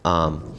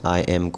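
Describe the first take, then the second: First: The words are joined into one short syllable. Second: Two separate full words are said. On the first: "बहुत सारे अल्फाज को मिला मिला कर बोलते हैं" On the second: "आई एम English में जब गुफ्तगू होती है"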